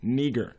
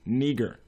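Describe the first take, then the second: First: The name is said with a Greek pronunciation. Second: The same.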